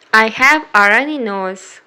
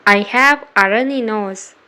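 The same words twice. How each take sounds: The two takes are said the same way.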